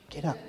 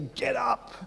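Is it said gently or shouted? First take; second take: gently; shouted. First: It is said gently and softly. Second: It is shouted like a trainer.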